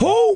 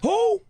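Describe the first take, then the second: First: It is said loudly. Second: It is said at normal loudness.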